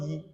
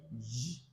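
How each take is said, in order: First: "Yi" said as a Y sound; wrong sound. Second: "Yi" said as a soft zh sound; "Yi" much softer and lower, as the right sound; correct G sound. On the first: Teacher contrasting the wrong "Yi" with the G sound. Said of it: "not Yi". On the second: Teacher modelling the G sound in "Yi". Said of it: "G sound". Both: Shown as a demonstration.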